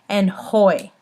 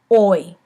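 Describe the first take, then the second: First: The word starts with an audible h sound. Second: The word starts with no h sound. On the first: The speaker calls it wrong. "I've been hearing some" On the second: The speaker calls it right. "when the H is by itself, it is silent"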